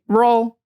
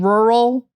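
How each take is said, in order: First: It is said fast with syllables squeezed together. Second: Every syllable is said fully and carefully. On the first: "they might just say it fast like that, like condensed" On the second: "instead of saying rural"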